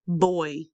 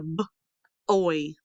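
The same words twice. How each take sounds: First: Said in the usual way. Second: B, pause, oy; sounded out. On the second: Shown as a demonstration. Teacher breaks down picture word, b, oy in parts. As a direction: split boy into b and oy. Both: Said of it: "Do you hear I".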